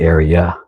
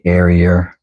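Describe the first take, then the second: First: The word has no extra 'er' sound. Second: The word has an extra 'er' sound added. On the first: This is the pronunciation the speaker wants to avoid. "they don't want to say area" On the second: The speaker is overcorrecting to avoid a local pronunciation. "they say area ... So they add an E R on accident"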